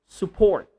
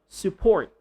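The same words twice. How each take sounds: No difference in how they are said.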